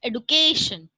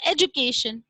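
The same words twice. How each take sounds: First: "education" with a hard d, ed-oo-KAY-shun; British pronunciation. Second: "education" with a j sound, ed-ju-KAY-shun; widely accepted pronunciation. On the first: Teacher showing the British form, "education" with a plain d. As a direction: say "education" with d, not j. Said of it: "British pronunciation is education". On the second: Teacher giving the accepted form, "education" with a j sound. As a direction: say "education" with j in place of d. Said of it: "the widely accepted pronunciation is education". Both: Shown as a demonstration.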